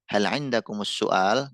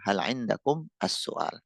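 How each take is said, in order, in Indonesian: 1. Kata-katanya disambung tanpa jeda. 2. Kata-katanya dibaca terpisah dengan jeda kecil. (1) "ini bisa dibaca wasol juga" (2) "dibaca pisah ya"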